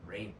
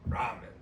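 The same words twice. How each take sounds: First: The first syllable sounds like 'ray'. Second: The first syllable sounds like 'rah'. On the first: The speaker calls it wrong. "Where's the Ray? R A Y?" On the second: The speaker calls it right. "it's Japanese. Ramen. Ra"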